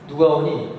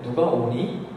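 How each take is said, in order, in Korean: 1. 의문사 의문문의 억양과 리듬이에요. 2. 예/아니요 의문문의 억양과 리듬이에요. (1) "그 의문사 의문인데" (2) "그러면 이거는 그 보통의 예 아니요 의문이 되고"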